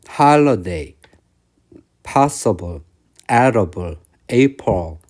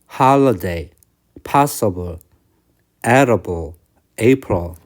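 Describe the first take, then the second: No difference in how they are said.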